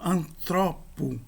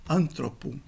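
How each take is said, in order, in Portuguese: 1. O acento está na segunda sílaba. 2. O acento está na primeira sílaba. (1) "o acento tem de avançar e a palavra se torna paroxítona" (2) "não mais antropo"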